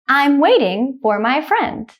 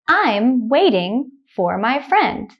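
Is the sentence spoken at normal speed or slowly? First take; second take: normal speed; slowly. First: The sentence is spoken at normal speed. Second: The sentence is spoken slowly. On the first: "The second time I will say it at a normal speed, like a native speaker" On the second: "The first time I will say it slowly"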